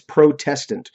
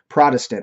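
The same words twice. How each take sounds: First: It is said carefully with a clear T sound. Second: It is said quickly with a D-like middle sound. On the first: The speaker calls it right. "really, it's Protestant" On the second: The speaker calls it wrong. "we say it quickly, and it sounds like there's a D"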